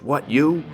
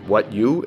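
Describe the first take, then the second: First: It sounds like a defiant challenge. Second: It sounds like a puzzled question.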